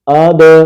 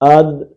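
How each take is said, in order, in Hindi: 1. अंतिम d गूंज वाले झटके के साथ छोड़ा जाता है। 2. अंतिम d सीधे रुक जाता है, इसमें कोई झटका नहीं होता। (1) "कलकला कैसे करना है हमने, ... आवाज हिले" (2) "ये कलकला नहीं है"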